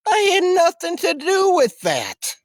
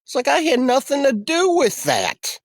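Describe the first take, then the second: First: "I had nothing to do with that" said slower and much higher, hitting "I"; emphatic denial. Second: Said in the usual way. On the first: Real, not acted. Denying blame to viewers, emphatic high-pitched insistence.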